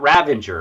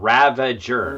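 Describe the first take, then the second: First: An n sound comes before the g. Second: No n sound comes before the g. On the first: The speaker calls it wrong. "not Ravenger" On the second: The speaker calls it right. "but Ravager"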